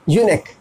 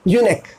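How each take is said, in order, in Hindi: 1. यह शब्द 'k' की आवाज़ से खत्म होता है। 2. यह शब्द 'k' की आवाज़ से खत्म होता है।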